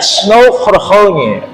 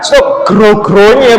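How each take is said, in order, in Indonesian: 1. Konsonan itu dibaca sebagai bunyi H. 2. Konsonan itu dibaca sebagai G keras. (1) "Yang betul"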